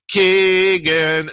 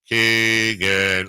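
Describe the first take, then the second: First: The name is said at a normal, higher pitch. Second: The name is said in a very low voice. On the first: This is the usual way the name is called. "normally he goes" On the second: This call was unusual, as if mocking someone. "it was so low"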